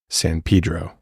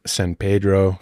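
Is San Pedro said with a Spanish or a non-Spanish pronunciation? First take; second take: non-Spanish; Spanish. First: The name is said with a non-Spanish pronunciation. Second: The name is said with a Spanish pronunciation. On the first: "more historical pronunciation" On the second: "the Spanish pronunciation is San"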